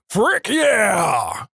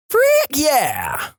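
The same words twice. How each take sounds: First: High, drawn-out holler back; yelling guy. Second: Very high-pitched yell; yelling girl. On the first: Catchphrase guy trades yells with girl, yelling. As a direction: holler it back, stretching the yeah. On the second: Vodka girl trades yells with classmate, yelling. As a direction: yell it high, trading shouts. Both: Acted. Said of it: "back and forth yelling".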